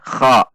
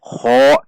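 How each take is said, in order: First: The vowel is said with unrounded lips. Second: The vowel is said with rounded lips. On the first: The speaker calls it right. "namun biasa saja" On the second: The speaker calls it wrong. "Tidak perlu dengan membulatkan bibir"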